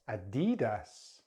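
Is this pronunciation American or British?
American. It is said with an American accent. "then American English"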